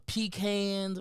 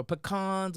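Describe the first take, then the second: First: Pecans said PEE-canz; PEE-cans pronunciation. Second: Pecans said puh-KAHNZ; puh-KAHNS pronunciation. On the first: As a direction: say pecans with a long ee first and "can" as in tin can. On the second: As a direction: say pecans with a weak first syllable and an open ah. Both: Shown as a demonstration. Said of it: "or however you say it".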